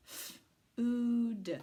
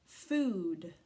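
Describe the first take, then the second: First: F-oo-d drawn out sound by sound; segmented sounding out. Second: Said in the usual way. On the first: Shown as a demonstration. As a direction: stretch F-oo-d into parts. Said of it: "sounding out the word". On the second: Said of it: "word after sounding out".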